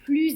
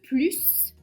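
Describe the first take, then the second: First: The word ends with a z sound. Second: The word ends with an audible s sound. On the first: "On prononce le S, mais attention, on entend le son Z" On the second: "On prononce le S"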